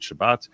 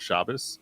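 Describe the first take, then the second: First: The word ends with a t sound. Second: The word ends with an s sound. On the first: This is how Israelis say it. "the Israelis will pronounce it Shabbat"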